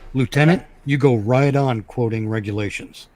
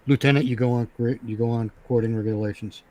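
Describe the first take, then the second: First: The line is delivered expressively, like a performance. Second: The line is delivered flatly, like plain reading. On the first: The character means what he says. The speaker calls it right. "he could say it that way, the way I did just now" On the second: The words are just being read off the page. The speaker calls it wrong. "it sounds like you're just reading it from the page"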